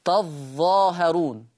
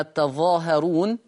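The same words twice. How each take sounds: First: تظاهرون with a doubled, held ظ; geminated ظ in تظاهرون, drawn out; Warsh reading. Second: تظاهرون with a light, single ظ; unstressed single ظ in تظاهرون; Hafs reading. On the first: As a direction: lean slowly on the ظ of تظاهرون. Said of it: "شدد الظاء بس". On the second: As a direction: say تظاهرون without doubling the ظ. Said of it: "بس بيخفف الظاء حفص". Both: Shown as a demonstration.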